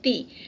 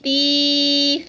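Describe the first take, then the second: First: The vowel is short, not lengthened. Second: The vowel is stretched out very long. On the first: "उसको इतना लंबा हमने हरका को किया था" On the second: "ज़्यादा लंबी हो जाती है, तो ये साउंड नहीं देनी"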